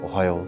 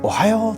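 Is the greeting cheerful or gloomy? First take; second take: gloomy; cheerful. First: It is mumbled in a gloomy, low voice. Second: It is said in a cheerful, pleasant voice.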